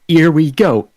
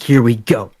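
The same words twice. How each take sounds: First: The H sound at the start is dropped. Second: The H sound at the start is pronounced. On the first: "they don't know how to pronounce the letter H" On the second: "it's like "Here we go"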